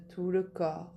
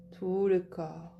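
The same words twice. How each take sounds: The two takes are said the same way.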